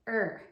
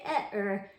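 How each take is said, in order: First: The two letters are blended into one sound. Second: The two letters are sounded as separate sounds. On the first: The speaker calls it right. "say er" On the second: The speaker calls it wrong. "Don't say et er"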